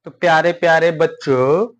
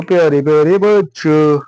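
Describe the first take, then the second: First: Said in the usual way. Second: Put-on louder sing-song greeting to children; affectionate loud greeting to kids; recorded take. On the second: Shown as a demonstration. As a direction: call the dear children out warmly. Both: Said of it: "गलत बन गया क्या भैया?".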